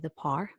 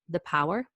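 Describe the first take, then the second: First: Power has the speaker's own personal pronunciation. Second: Power has its usual, standard pronunciation. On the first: "that's how I pronounce that word" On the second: "it's currently called"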